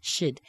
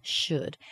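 First: "should" shrunk to a small schwa sound; quick reduced "should"; reduced form. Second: "Should" with its full, unreduced vowel; full strong form of "Should". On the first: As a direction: say "should" short and weak, like "shd". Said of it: "that really small sound of should". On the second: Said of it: "we're not going to reduce this". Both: Shown as a demonstration.

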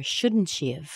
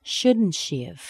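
First: "shouldn't she have" with have reduced to "of". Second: "Shouldn't she have" said slowly with a full "have". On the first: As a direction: say "have" as a quick "of" after the pronoun. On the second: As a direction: stretch out "have" fully, slowly. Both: Shown as a demonstration. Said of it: "We reduce that have down to of".

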